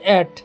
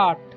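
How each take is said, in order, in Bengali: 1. স্বরধ্বনিটি 'bed' শব্দের মতো শোনায়। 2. স্বরধ্বনিটি 'cat' শব্দের মতো শোনায়।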